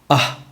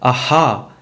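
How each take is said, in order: First: The breathy ending is clipped short with no vowel. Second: The breathy ending is echoed with an extra vowel. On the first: The speaker calls it right. "That's the reason you had to cut it half" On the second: The speaker calls it wrong. "when you echo it like aha, that you're making it two"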